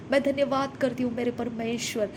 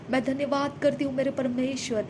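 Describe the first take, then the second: No difference in how they are said.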